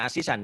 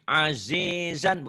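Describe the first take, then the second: First: The middle consonants are hissing s sounds. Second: The middle consonants are buzzing z sounds. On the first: The speaker calls it wrong. "bukan asisan ya" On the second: The speaker calls it right. "Agak keras, azizan"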